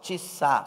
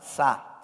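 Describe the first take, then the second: First: It is said slowly with a vowel after t. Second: It is said quickly with no vowel after t.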